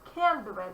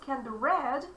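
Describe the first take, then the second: First: The stress falls on the word can. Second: The stress falls on the word read. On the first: The speaker calls it wrong. "it's impossible to say" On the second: The speaker calls it right. "we're supposed to emphasize read"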